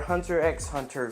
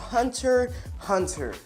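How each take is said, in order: First: The X is spoken between the words. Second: The X is left out between the words.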